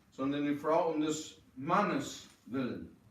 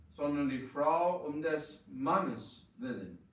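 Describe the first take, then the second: The two takes are said the same way.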